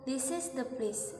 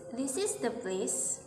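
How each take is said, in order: First: "this is the place" with a falling end, stress on "is"; statement tune. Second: "this is the place" slow, rising at the end, stress on "is"; question tune. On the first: Teacher showing statement intonation with a fall. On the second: Teacher showing question intonation with a rise. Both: Shown as a demonstration. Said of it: "statement versi question".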